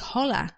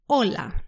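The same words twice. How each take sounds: First: The word starts with an audible H sound. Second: The word starts directly with the vowel. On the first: The speaker calls it wrong. "We don't say hola" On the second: The speaker calls it right. "We ignore the H and we say hola"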